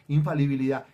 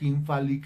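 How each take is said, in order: First: The word is said in full, clearly. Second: The word is garbled and broken off. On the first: The speaker has practised the word. The speaker calls it right. "Así me toca ensayar frente al espejo" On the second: The speaker does not know the word. The speaker calls it wrong. "ni siquiera lo sabe pronunciar"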